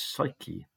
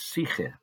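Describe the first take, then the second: First: The word is pronounced the English way. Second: The word is pronounced the Greek way. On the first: "which we mispronounce as psyche, as in psychology" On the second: "The Greek word for soul is psyche"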